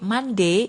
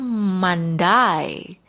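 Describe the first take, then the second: First: The last syllable sounds like "day". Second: The last syllable sounds like "die". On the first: "ini D dibaca day, ini biasanya American" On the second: "Kalau British atau orang Inggris, pakainya Monday"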